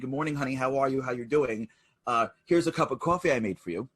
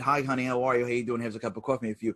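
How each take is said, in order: First: It is said warmly and with feeling. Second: It is said flatly, without any feeling.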